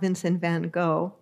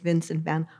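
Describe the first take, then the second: First: The surname is said like English 'go'. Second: The surname is said with a Dutch pronunciation. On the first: The speaker calls it wrong. "you don't say go, not Vincent van Gogh" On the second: The speaker calls it right. "if you're Dutch"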